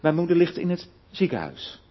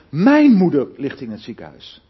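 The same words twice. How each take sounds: First: The stress is on the word ziekenhuis. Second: The stress is on the word mijn. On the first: She is in a hospital, not a nursing home. "niet in een verpleeghuis of waar dan ook" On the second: It is this person's mother, not someone else's. "Begin maar eens even de klemtoon te leggen op mijn"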